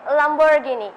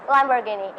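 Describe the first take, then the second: First: "Lamborghini" in a British accent, "ghini" like "gee-nee". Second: "Lamborghini" in an American accent, "ghi" opened toward "geh". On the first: Student answering interviewer's car question, British "Lamborghini". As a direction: say "Lamborghini" British-style, with a clear "ee" in "ghi". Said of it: "in British accent". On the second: Student answering interviewer's car question, American "Lamborghini". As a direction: say "Lamborghini" American-style, like "lamber-geh-nee". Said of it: "in American accent". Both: Shown as a demonstration.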